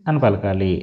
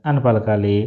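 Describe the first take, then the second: The two takes are said the same way.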